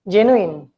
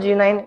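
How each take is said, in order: First: The last syllable is a short in sound. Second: The last syllable sounds like the word nine. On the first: The speaker calls it right. "it is genuine" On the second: The speaker calls it wrong. "it is not a G nine"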